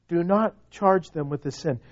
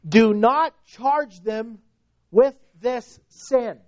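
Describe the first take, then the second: First: Said in the usual way. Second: Raised, slow, deliberate proclamation; loud cry. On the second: Acted. Preacher quoting Stephen's plea for his killers, slow raised cry. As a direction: call it out slowly, each word weighted. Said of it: "with a loud voice he cries out".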